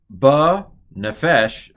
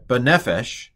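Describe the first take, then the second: First: Slow, loud "Ba Nefesh" with the weight landing on FESH; mistaken last-syllable stress. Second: Corrected "Ba Nefesh", punch NEF and drop away on esh; stress on second-to-last syllable. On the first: Teacher misreading the Hebrew aloud, Nefesh stressed on the end. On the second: Teacher correcting the Hebrew reading, Nefesh stressed on NEF. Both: Shown as a demonstration. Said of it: "they accent the second to last syllable".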